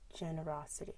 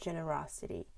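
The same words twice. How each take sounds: First: The G is soft and relaxed. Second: The G is tense and strongly articulated. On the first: The speaker calls it right. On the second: The speaker calls it wrong. "with a very uh, strong articulation like j j j j j j"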